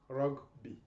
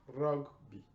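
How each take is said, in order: First: The g and b are said separately. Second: The g and b are said separately.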